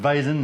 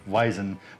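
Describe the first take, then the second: First: The word begins with a V sound. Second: The word begins with a W sound. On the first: The speaker calls it right. "in German pronounced V instead of W" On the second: The speaker calls it wrong. "instead of Weizen"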